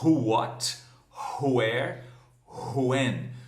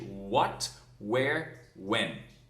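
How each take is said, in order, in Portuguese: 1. As palavras começam com um som 'hw' aspirado. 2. As palavras começam com um som 'w' simples. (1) "algumas pessoas eh, ainda falam who what, where, when. Não está errado, mas só que é bem arcaico" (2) "Então diga simplesmente what, where, when"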